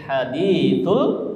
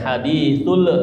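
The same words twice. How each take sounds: First: The final l sound is held without bouncing. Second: The final l sound bounces with an echo. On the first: The speaker calls it right. "tapi hadithul ghasyiyah" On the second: The speaker calls it wrong. "jangan sampai mantul, jangan hadithul"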